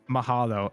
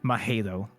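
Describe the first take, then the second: First: It is said with a native Hawaiian pronunciation. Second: It is said with an English-speaking tourist's pronunciation. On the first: The speaker calls it right. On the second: The speaker calls it wrong.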